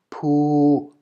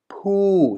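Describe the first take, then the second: First: The pitch stays level in mid range. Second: The pitch falls across the syllable. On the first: "Middle-class consonant can also only be obtained" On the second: "So here with the falling tone"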